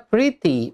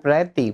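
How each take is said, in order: First: "pretty" said as PRIT-ee; short i in the first syllable of "pretty"; correct pronunciation. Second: "pretty" mispronounced as PRET-ee; an e in the first syllable of "pretty"; wrong pronunciation demo. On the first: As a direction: say "pretty" with an i, as "pritty". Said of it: "ngomongnya adalah pretty". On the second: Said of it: "bukan pretty". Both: Shown as a demonstration.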